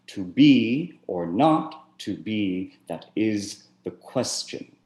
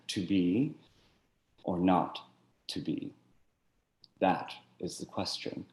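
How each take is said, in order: First: The word 'that' carries no special emphasis. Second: The word 'that' carries strong emphasis.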